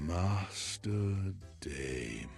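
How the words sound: It is said in a sexy, seductive way.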